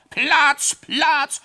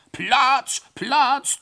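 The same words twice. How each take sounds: First: Very high, loud bellow clearing the way; roaring shout. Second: Very high, loud two-voice bellow; roaring shout. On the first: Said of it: "brüllte er dabei in einem fort". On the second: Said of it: "nahte es zweistimmig". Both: Acted. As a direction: yell it at the top of your lungs.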